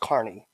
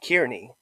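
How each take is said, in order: First: The first syllable sounds like 'car'. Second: The first syllable sounds like 'keer'. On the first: The speaker calls it right. "It's pronounced Carney" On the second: The speaker calls it wrong. "people pronounce it Kearney"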